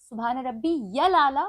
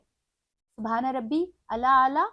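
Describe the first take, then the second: First: A y sound links into 'al'. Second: There is no y sound before 'al'. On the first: The speaker calls it right. "सही" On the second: The speaker calls it wrong. "गलत"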